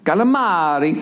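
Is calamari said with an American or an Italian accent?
Italian. It is said with a lively Italian accent. The speaker calls it right. "the way you say it sounds great"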